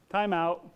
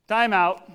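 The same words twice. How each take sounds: First: Said in the usual way. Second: Louder and higher, clipped halt; sharp call to stop. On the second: Retold or imitated. Jesus cutting off the wailers, loud. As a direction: stop the noise like a referee.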